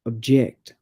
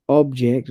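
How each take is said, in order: First: Weak OB, strong JECT in OBJECT; second-syllable stress. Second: Full vowel and weight on OB in OBJECT; first-syllable stress. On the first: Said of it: "stress the second syllable". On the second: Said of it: "stress is on the first syllable". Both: Shown as a demonstration.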